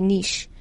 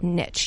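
First: The word is said with a French pronunciation. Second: The word is said with an American pronunciation. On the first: "one is like a French person would say niche" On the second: "we're supposed to Americanize it, which is like niche"

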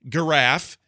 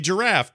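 First: It begins with a hard G sound. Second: It begins with a soft G sound. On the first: The speaker calls it wrong. "You don't say giraffe" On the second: The speaker calls it right. "You say giraffe because that's a different kind of usage"

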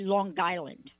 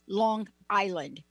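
First: It is said in a strong New York accent. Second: It is said in a general, non-New York accent. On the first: The speaker calls it right. "if you're from New York, you say Long Island like that" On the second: The speaker calls it wrong. "you don't say Long Island"

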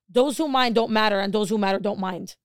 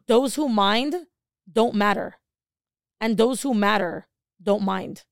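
First: It is said at normal speed. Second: It is said more slowly.

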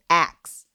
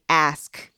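First: The k sound comes before the s sound. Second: The s sound comes before the k sound. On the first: "how some folks say axe" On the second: "The way we say ask"

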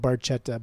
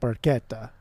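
First: The word is read as English spelling suggests. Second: The word is said with Italian pronunciation. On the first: The speaker calls it wrong. "If you're reading it phonetically, it's not it's spelled Barchetta" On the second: The speaker calls it right. "but it's pronounced Barchetta"

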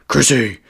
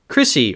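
First: The name is said in a put-on character voice. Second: The name is said in a normal voice.

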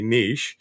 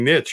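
First: It is said the European and Canadian way. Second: It is said the American way.

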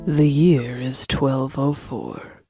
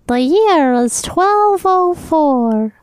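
First: It is read plainly, with a stuffy nose. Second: It is read dramatically, in a put-on voice.

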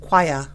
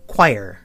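First: It is said in a British accent. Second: It is said in an American Midwestern accent. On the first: "Brits pronounce it" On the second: "I'm an American, so, and a Midwesterner, so we pronounce it"

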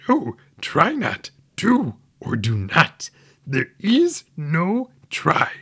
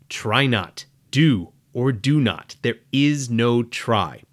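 First: It is said in an imitation of Yoda's voice. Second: It is said in the speaker's normal voice.

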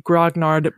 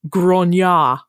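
First: The word is pronounced with English sounds. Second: The word is pronounced with French sounds. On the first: The speaker calls it wrong. "the original pronunciation of this word is not actually grognard" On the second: The speaker calls it right. "but grognard"

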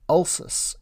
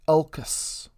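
First: The C is pronounced with an S sound. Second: The C is pronounced with a K sound. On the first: "So why do we use the soft C?" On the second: "and not ulcus"

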